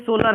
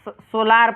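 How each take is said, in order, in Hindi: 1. दूसरा स्वर छोटा, हल्का स्वर है। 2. दूसरा स्वर लंबा 'aa' है। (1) "ये सोलर है" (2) "ये नहीं कि इसको सोलार पढ़ेंगे"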